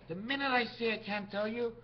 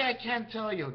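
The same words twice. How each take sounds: First: Said in the usual way. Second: Snappy retort. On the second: Shown as a demonstration. Answering a nosy questioner with a snappy refusal. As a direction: snap the words back at the asker. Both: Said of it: "nice snap, eh?".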